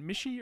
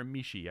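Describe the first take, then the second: First: MISHI with a short i, "MISH-ee"; pronunciation option. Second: MISHI with a long ee, "MEE-shee"; alternative pronunciation. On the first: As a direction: say Mishi to rhyme with "dishy". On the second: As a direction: stretch the first vowel of Mishi to "mee". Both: Shown as a demonstration. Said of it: "is it Mishi or Mishi".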